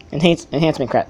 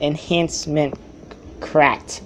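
First: Tongue-tied stumble. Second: Slow careful repeat. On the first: Real, not acted. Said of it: "I can't even talk". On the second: Shown as a demonstration. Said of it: "I said, I said".

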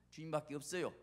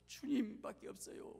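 First: Said in the usual way. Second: 주님밖에 없어요 high and drawn out; fervent emphasis. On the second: Real, not acted. Preacher warns to trust nobody but the Lord, fervent emphasis on 주님밖에. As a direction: lift 주님밖에 high, then let it fall. Fervent take of repeated line.

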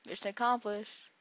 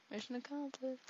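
First: Said in the usual way. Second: Mission accomplished said softer and higher in a put-on voice. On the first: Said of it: "first take". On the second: Shown as a demonstration. Gamer repeating his win line softly in a higher voice. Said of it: "second take, changed voice".

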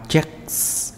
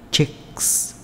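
First: Said in the usual way. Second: Checks whispered, the final s a soft breathy hiss; whispered demo. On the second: Shown as a demonstration. Teacher shows the soft s sound to students, whispered. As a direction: breathe out checks with a light hissing s. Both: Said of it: "âm sờ gió nhẹ".

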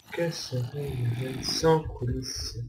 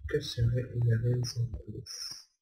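First: Slower, drawn-out rhetorical question; mock-theatrical question. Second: Said in the usual way. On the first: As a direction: draw it out as if pondering grandly. (question rhétorique étirée, faussement solennelle)

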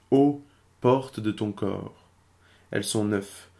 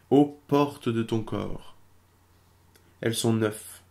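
Both takes have the same delivery.

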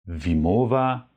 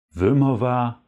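First: Wimowa with a German i, not the Polish y; wrong pronunciation Wimowa. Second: Wymowa with a dark Polish y, vy-MO-va; contrast: the right y in wymowa; correct Polish wymowa. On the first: Teacher demonstrates the mistake German learners make. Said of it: "Also nicht". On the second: Teacher corrects the mistake, modelling proper wymowa. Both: Shown as a demonstration.

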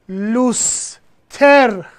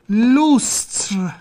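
First: لوستر split as "lus... ter"; slow two-syllable "loos-TER" for لوستر; Persian pronunciation. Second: لوستر as "lustr", no vowel between t and r; slow one-syllable "loostr" for لوستر; original French form. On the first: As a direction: put an e between t and r in لوستر. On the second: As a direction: end لوستر on a bare "tr" cluster. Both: Shown as a demonstration.

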